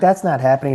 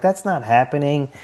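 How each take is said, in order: First: A touch higher, echoing the same denial; mild echo of the wife; lightly quoting himself. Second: A touch higher, flat denial; quoting the nurse wife lightly; a hint of a skeptical nurse; mildly voiced wife's denial. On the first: Retold or imitated. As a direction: repeat the line as his own retort. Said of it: "And I'm like". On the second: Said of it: "She's like".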